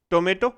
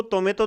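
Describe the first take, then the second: First: Said in the usual way. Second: टोमेटो with soft dental t, "तोमेतो"; टोमेटो mispronounced with ते sounds for टे; wrong soft T. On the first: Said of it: "ये क्या है भी अपने". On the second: Shown as a demonstration. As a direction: put the tongue on the teeth for both Ts in टोमेटो. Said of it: "इसको टोमेटो तो नहीं कहते".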